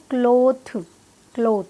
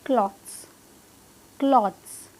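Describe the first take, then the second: First: क्लॉथ ending in an aspirated th; क्लॉथ with a long o and hard th, no s; common wrong clothes. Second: क्लॉथ्स as "klodz", no th; one falling syllable, क्लॉथ्स with a buzzed dz ending; correct clothes pronunciation. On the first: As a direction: end क्लॉथ on a puffed T sound. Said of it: "इसे भी लोग गलत pronounce करते हैं". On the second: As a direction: close क्लॉथ्स on D plus Z. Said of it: "कैसे pronounce करेंगे इसे". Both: Shown as a demonstration.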